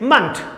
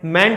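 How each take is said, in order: First: The vowel is a short reduced 'uh' sound. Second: The vowel is a full 'e' sound. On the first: The speaker calls it right. "It is मंट" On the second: The speaker calls it wrong. "मेंट नहीं होता"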